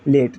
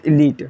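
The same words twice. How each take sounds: First: लेट with an "e" as in "let"; E vowel, not EE. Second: लीट with a long "ee" in the middle; long EE vowel. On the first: Teacher showing the word without final E, plain E vowel. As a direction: say लेट with no "ee" sound. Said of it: "अगर मैं इस ई को हटा दूँ". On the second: Teacher showing what the final E does, long EE. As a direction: say लीट to rhyme with "feet", last E silent. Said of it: "इसका उच्चारण ई हो रहा है". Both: Shown as a demonstration.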